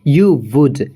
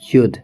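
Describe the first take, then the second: First: Two full words: you, then would. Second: One contracted syllable: you'd.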